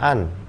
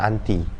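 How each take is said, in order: First: The word ends without any added vowel. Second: The word ends with an added vowel sound. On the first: It is the dictionary form. "secara Oxfordnya biasanya nyebutin dengan an" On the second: It is the everyday casual form. "kebanyakan film akan menyebutin dengan anti"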